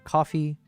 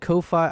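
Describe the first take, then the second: First: The name is said like 'coffee'. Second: The name is not said like 'coffee'. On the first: The speaker calls it right. "I thought it's pronounced like coffee" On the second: The speaker calls it wrong. "you said Ko-fi"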